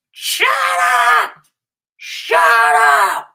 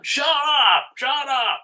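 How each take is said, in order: First: Much higher, much louder screamed shut up; furious yell. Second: High, mocking shout of shut up; imitated yelling owner. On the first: Retold or imitated. Dog owner next door screaming at dogs, full-volume yell. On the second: Neighbor yelling at his dog, imitated high and loud. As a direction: mimic a cruel owner snapping at his dog. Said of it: "like, yelling".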